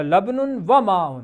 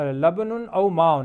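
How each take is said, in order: First: لبن و ماء read slowly as laban wa maa; slow Arabic reading. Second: لبن او ماء read slowly as labanun au maa; slow Arabic reading. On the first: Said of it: "دو اسماء کو جوڑ دیا واو کے ساتھ". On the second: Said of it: "اسی طرح دیکھیے لبن او ماء". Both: Shown as a demonstration.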